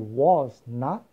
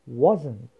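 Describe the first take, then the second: First: Not is said as a full separate word. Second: Not is contracted, its vowel sound dropped. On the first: "que eram duas palavras separadas" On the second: "o som O desapareceu"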